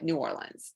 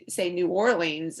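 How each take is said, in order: First: It is said the way locals say it. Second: It is said the way out-of-towners say it. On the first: The speaker is from the city. "and we call it New Orleans" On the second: The speaker is not from the city. "people from out of town call New, say New Orleans"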